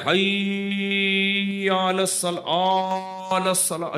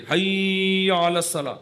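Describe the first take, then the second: First: Very slow, warbling mock call to prayer; mocking odd azan. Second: Chanted, حی علی الصلاح slow, حی short, الصلاح drawn out; chanted, show the right elongation on الصلاح only; correct chant length. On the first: Preacher mocking a strange azan heard locally, slow warbling. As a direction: parody a strange muezzin's drawn-out call. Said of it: "عجیب عجیب اذانیں ہو رہی ہیں". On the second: Shown as a demonstration. Teacher demonstrating correct azan length, slow measured chant. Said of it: "حی کو نہیں کھینچ سکتے".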